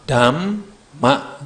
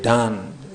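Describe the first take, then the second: First: The middle sound is said with closed lips. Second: The middle sound is said with open lips. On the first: The speaker calls it right. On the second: The speaker calls it wrong.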